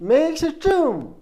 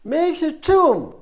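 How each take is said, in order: Both takes have the same delivery.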